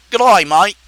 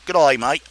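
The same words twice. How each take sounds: First: Fuller, punchier Australian greeting; Australian accent. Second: Low-key Australian greeting; Australian accent. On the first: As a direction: call it out in a broad Aussie accent. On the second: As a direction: try out an Aussie accent, low and understated. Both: Acted. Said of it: "That's all I can say in Australian".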